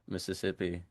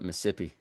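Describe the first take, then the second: First: All four syllables of the word are pronounced. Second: The word is shortened, dropping a middle syllable.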